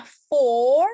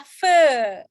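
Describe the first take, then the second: First: "for" louder with a long held O; long O sound. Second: "fur" louder, with a long "uh" vowel; long central vowel. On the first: Teacher contrasting two vowels for class, long O in "for". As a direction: hold the O in "for". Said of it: "O panjang". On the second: Teacher contrasting fur with for, long loud "fur". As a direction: hold the neutral "er" vowel in "fur". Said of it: "Ini adalah fur". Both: Shown as a demonstration.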